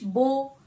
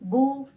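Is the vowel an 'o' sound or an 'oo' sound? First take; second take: o; oo. First: The vowel is a long 'o' sound. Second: The vowel is a long 'oo' sound. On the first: It follows the Urdu way of reading. The speaker calls it wrong. "मजहूल यानी उर्दू के लबो लहजे पर पढ़ने से बचना है, जैसे कि बा पेश बो, तो ऐसे साउंड से हमें बचना है" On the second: It follows the Arabic way of reading. The speaker calls it right. "ये हमारा अरब का लबो लहजा है ... ऊ का साउंड आएगा"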